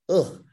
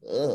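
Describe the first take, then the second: First: It is said in the speaker's normal voice. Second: It is said in a Tiffany Strand voice.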